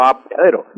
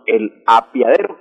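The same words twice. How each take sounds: First: "apeadero" meant with E, a-pe-a-de-ro; correct apeadero. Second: "apiadero" with I for E, a-pia-de-ro; incorrect apiadero. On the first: Shown as a demonstration. Language expert correcting the household word, "apeadero" pronounced with E. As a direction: put the E back in "apeadero". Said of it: "que no es correcto, sino". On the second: Retold or imitated. Language expert quoting the household word, "apiadero" mispronounced with I. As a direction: say "apiadero" with -pia- as one syllable. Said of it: "que no es correcto".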